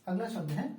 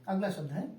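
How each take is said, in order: The two takes are said the same way.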